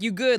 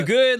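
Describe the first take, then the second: First: It sounds caring, like a genuine check-in. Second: It sounds confrontational, like demanding money.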